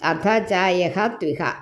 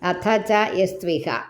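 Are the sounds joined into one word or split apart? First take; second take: split; joined. First: The words are split, ending yaha before tviha. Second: The words are joined smoothly as yastviha. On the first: The speaker calls it wrong. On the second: The speaker calls it right.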